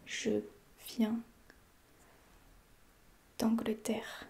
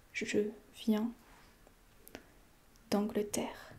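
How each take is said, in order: Both takes have the same delivery.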